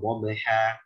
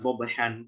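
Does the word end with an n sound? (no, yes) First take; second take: no; yes. First: The word ends on a vowel, without n. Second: The word ends with a final n sound. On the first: The reader stops at this word. The speaker calls it right. "Kalau wakof tanwinnya mesti hilang menjadi satu harokat saja" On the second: The word runs on into the next word. The speaker calls it wrong. "bukan wabhan"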